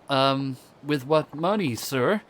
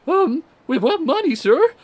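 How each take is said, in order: First: It is said in a normal, unaltered voice. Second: It is said in a high, squeaky teen voice.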